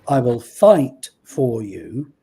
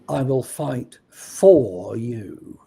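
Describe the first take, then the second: First: The word 'fight' carries the main stress. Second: The stress falls on a word other than 'fight'.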